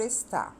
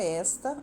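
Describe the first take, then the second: First: "está" stressed on final TÁ; "está" as es-TÁ, weak first syllable; stress on last syllable. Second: "esta" stressed on ES, open e; "esta" as ES-ta, weak final syllable; stress on first syllable. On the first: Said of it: "a sílaba forte dela é a última". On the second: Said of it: "a sílaba mais forte é o es". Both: Shown as a demonstration.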